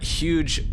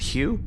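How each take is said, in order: First: The name ends with a 'j' sound. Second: The name ends with a vowel sound. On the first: "his name was Huge Deck Setter" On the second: "Some of the Rangus planets pronounce it Hugh"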